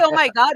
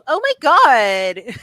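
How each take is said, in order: First: It has only a slight Valley Girl undertone. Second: It has a strong, dramatic Valley Girl accent. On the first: It is how the speaker normally says it. "but I don't say it that drastic" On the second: It imitates people who put on the accent. "you're all"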